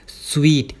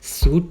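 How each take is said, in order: First: It sounds like 'sweet' with an ee vowel. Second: It sounds like 'soot' with an oo vowel. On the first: The speaker calls it right. "उसे हम बोलते हैं स्वीट" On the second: The speaker calls it wrong. "इसे बहुत सारे लोग सूट pronounce करते हैं"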